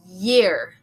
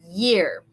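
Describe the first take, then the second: First: It begins with a soft Y sound. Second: The same.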